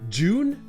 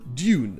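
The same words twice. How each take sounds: First: The word begins with a 'j' sound. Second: The word begins with a 'dy' sound. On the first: "avec le son je" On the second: "avec le son ye"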